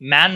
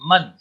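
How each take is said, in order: First: The vowel sounds like the 'a' in 'man'. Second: The vowel sounds like the 'u' in 'mun'. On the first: The speaker calls it wrong. "मैन नहीं बोलते" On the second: The speaker calls it right. "न्यूमन बोलते"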